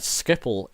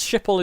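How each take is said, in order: First: Schiphol with an SK opening, "SKIP-ul"; Dutch-style Schiphol. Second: Schiphol with an SH opening, "SHIP-ul"; English-style Schiphol. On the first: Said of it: "is the Dutch way of saying it". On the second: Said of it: "is the English way of saying it". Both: Shown as a demonstration.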